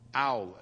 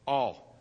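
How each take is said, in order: First: The word sounds like 'owl'. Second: The word sounds like 'all'. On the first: The speaker calls it wrong. "Not an owl?" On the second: The speaker calls it right. "Okay. All"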